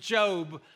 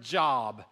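First: It is said differently from the common word job. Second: It is said like the common word job. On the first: This is the name of the Bible book. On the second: This is the everyday word for work.

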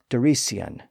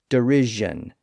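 First: The middle consonant is a hissing s sound. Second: The middle consonant is a buzzing zh sound. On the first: This is the original older pronunciation. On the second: This is the later modern pronunciation.

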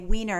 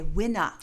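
First: It is said in standard English. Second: It is said in Hawaiian Pidgin. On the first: "you don't say wiener" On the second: "So in pidgin, ... you say winner"

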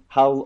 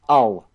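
First: The word starts with a clear h sound. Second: The word starts without any h sound.

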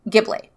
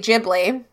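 First: The word is pronounced the Italian way. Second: The word is pronounced the Japanese way. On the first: This is the original Italian form of the word. "in Italian, it's actually Ghibli" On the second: This is how Japanese speakers say the name. "the Japanese say Ghibli"

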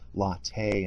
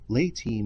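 First: It is said to sound like the drink latte. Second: It is said in its usual anatomical pronunciation. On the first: The speaker calls it wrong. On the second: The speaker calls it right.

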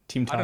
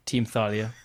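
First: It is said with a German pronunciation. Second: It is said with an English pronunciation.

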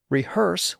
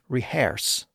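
First: It is said in a standard modern way. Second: It is said in a Scottish-like way.

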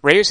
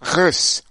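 First: The name is said with a plain, smooth sound. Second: The name is said with a harsh, throaty sound. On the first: The speaker calls it wrong. "It's not Reus at all" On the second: The speaker calls it right. "you kind of had to hear me cough up phlegm for that"

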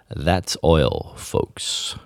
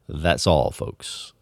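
First: Oil is said with a standard American diphthong. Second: Oil is said in Texan, sounding like all. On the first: "if you read this in standard American English" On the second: "if you read it in let's just say Texas English"

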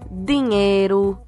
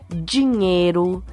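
First: The d before i is a plain d. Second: The d before i sounds like a j. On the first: This is how people in other states speak. "Eles não fazem esse d que a gente faz" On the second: This is how people in some regions speak. "esse som de D que você percebe aí"

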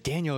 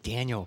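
First: The name is said firmly, with force. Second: The name is said softly, without force.

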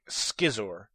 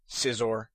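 First: The C at the start is sounded. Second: The C at the start is silent. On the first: The speaker calls it wrong. "I've heard people saying Scizor" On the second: The speaker calls it right. "the C is silent"

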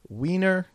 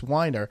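First: The first vowel sounds like 'ee'. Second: The first vowel sounds like 'eye'. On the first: "I-E, it's Weiner. ... It's pronounced E" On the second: "E-I, it's Weiner. ... it's pronounced I"

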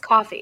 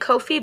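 First: It sounds exactly like the word coffee. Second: The first syllable sounds like 'koh'. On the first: This is what the speaker believes is intended. "but I think it's coffee" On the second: This is how the speaker habitually says it. "I say Ko-fi"

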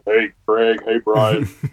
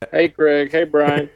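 First: It is said in a lowered, deeper voice. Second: It is said in his normal voice.

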